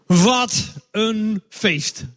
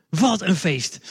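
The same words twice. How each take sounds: First: Slow, drawn-out exclaim of what a feast; slow, savoured announcement to the children; joyful proclamation. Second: Said in the usual way. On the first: Shown as a demonstration. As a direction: stretch every word out with wonder.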